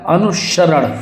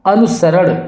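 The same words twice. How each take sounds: First: अनुसरण with sh in the middle; whistling sibilant. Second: अनुसरण with plain s; wrong sibilant. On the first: Teacher telling students "whistle s", अनुसरण as "anu-sharan". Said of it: "सीटी वाला सा आएगा". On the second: Teacher showing the error, अनुसरण with plain s. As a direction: say अनुसरण as "anu-saran". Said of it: "सपेर वाला सा नहीं आएगा". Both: Shown as a demonstration.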